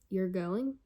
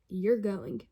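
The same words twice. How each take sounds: First: It ends with a rising question tune. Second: It is said loudly with excited emphasis. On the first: It asks whether it is true. "whether it was a question mark" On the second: It expresses strong feeling. "whether it was an exclamation point"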